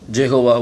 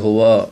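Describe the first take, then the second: First: The name starts with a 'j' sound. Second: The name starts with a 'y' sound. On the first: This is how it is said in English. "ஆங்கிலத்தில் நீங்கள் பார்த்தீங்கன்னா அதே இது நம்ம வந்து ஜெகோவா அப்படின்னு சொல்லி சொல்லுவோம்" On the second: This is how it is said in Tamil. "தமிழில் நம்ம யெகோவான்னு சொல்லி சொல்கிறோம்"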